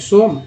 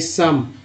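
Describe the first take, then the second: First: The vowel is an 'oh' sound. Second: The vowel is an 'uh' sound. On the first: The speaker calls it wrong. "सोम, नहीं सम" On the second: The speaker calls it right. "नहीं सम"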